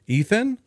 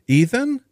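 First: High rising call into the silence. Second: High, louder shout of a name. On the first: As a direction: call his name, unsure. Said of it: "Lucas called out". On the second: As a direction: shout the name, more urgent now. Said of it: "he shouted again". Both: A narrator's reading.

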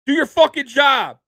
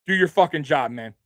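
First: Loud high furious yell at linemen; Peyton Manning yelling. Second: A mild mock scolding, barely raised; half-hearted captain's rebuke to the line; pretend chewing out. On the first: Retold or imitated. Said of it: "You've seen Peyton Manning yell at offensive linemen". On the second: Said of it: "That's what I would be saying if I'm Josh Allen".

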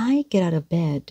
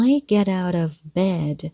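First: "get out of" run together quickly, landing on "bed"; quick linking. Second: Said in the usual way. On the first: Shown as a demonstration. Teacher showing the quick middle, "get out of" run together. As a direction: rush lightly through "get out of" to "bed". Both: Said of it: "cái phần này có rất là nhanh".

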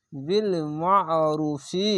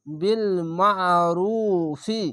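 First: Slow বিল মা'রুফি with thick আইন; tajweed reading of বিল মা'রুফি; throaty ain. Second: মা'রুফি with squeezed-throat আইন, slow; slow chanted বিল মা'রুফি; throaty ain. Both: Shown as a demonstration. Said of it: "আইনটিকে মোটা করে গলা চিপে পড়বেন".

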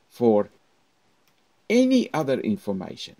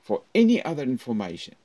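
First: Louder, rising "For any other information"; voice goes up. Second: Faster, louder, raised "For any other information". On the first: Teacher showing students to raise their voice. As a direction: lift the voice up, up, up. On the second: Teacher repeating with a raised voice. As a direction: push it up again. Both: Shown as a demonstration. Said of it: "Up, up, up".

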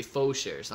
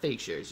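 First: "faux" said as "foh", the French way; fancy pronunciation. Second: Said in the usual way. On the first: Shown as a demonstration. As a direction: say "faux" like a fancy person, slow, as "foh shares". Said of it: "if you're fancy like Irving". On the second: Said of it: "not fake shares".

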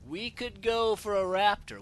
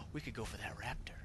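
First: Louder, slower, proud announcement; slow confident proclamation; bold declaration. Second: Hushed scheming whisper; barely voiced conspiratorial aside. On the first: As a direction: declare the plan boldly. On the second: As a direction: whisper the idea to yourself. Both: Real, not acted.

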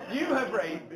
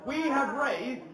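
First: YOU leaned on as the key word; stress on YOU. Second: Said in the usual way. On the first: Real, not acted. Auctioneer credits the bidders, stress on "You". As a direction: put the emphasis firmly on "You". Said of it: "sorry, you have raised, I've done nothing". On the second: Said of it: "sorry, you have raised".

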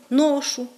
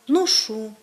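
First: «ношу» stressed on the first syllable; діалектний наголос. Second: «ношу» stressed on the last syllable; літературний наголос. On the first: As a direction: say «ношу» as NOshu, dialect stress. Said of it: "вплив діалектного мовлення". («ношу» з наголосом на першому складі) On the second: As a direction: say «ношу» as noSHU. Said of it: "останньому складі". («ношу» з наголосом на останньому складі) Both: Shown as a demonstration.

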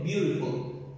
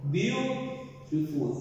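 First: Said in the usual way. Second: BEAUTIFUL stretched slowly into separate syllables. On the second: Shown as a demonstration. Teacher showing the syllable count, "beautiful" slowly broken up. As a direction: draw out "beautiful" slowly, breaking it between syllables. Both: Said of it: "Tiene dos sílabas".

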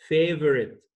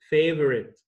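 Both takes have the same delivery.

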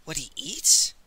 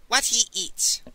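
First: Surprised question, voice turning up; puzzled echo question. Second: WHAT pitched high, EATS falling; higher, emphatic repeat that falls at the end; firm confirmation. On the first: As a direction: query it with EATS lifting at the end. Ox queries Master Li's order. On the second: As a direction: state it as final, starting high and dropping. Master Li confirms his order. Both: Acted.

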